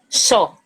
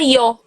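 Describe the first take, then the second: First: It begins with an 'sh' sound. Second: It begins with a soft 'y' sound. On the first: "Como se fosse C H O, xó" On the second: "como se fosse um I"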